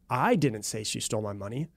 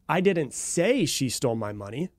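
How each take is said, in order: First: The stress falls on the word I. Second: The stress falls on the word say. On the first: Someone else said it. "implying someone else said it, but it wasn't me" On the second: It was hinted or written but not spoken. "you're implying that I might have hinted it, or I might have written it, but I didn't actually verbally say it"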